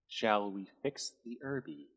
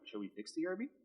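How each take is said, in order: First: It is said slowly. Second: It is said at normal speed.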